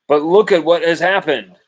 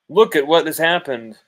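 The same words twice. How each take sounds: First: Raised higher and louder, pointing at the proof; loud vindication. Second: Loud repeat. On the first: Podcast host to his critics, loud and triumphant. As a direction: hammer it home like I told you so. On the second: Host repeating to critics, loud and insistent. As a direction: still raised, a touch less hard, driving it in. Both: Real, not acted.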